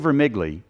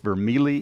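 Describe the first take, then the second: First: The g sound is clearly pronounced. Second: The g sound is left silent. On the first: The speaker calls it wrong. "because I want to say the G, ... And if I say Vermigli, it's wrong" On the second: The speaker calls it right. "It's Vermigli"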